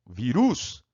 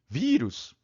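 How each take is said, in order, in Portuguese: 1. A tônica está na última sílaba. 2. A tônica está na primeira sílaba. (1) "Na outra regra, a vogal tônica natural é a vogal um. Chama no parquinho" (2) "Chama no, no português"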